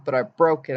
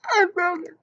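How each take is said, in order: First: Said in the usual way. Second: Much higher alarmed cry of I broke it; panicked blurt. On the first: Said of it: "You go". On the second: Shown as a demonstration. How not to tell mom about the tooth, high panicked blurt. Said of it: "You don't be like".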